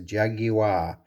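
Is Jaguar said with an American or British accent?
British. It is said with a British pronunciation.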